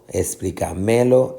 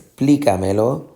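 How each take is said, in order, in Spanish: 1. El acento cae en la sílaba 'ca'. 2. El acento cae en la sílaba 'pli'. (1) "no es explícamelo" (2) "sino que es explícamelo"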